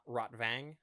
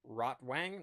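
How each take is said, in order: First: The middle consonant is a v sound. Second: The middle consonant is a w sound. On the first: The speaker calls it right. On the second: The speaker calls it wrong.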